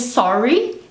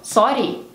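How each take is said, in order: First: It has an ordinary English, unrolled R. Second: It has a Scottish rolled R.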